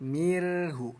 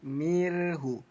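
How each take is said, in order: The two takes are said the same way.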